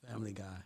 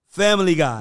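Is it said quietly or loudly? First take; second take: quietly; loudly. First: It is said quietly. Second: It is said loudly and confidently.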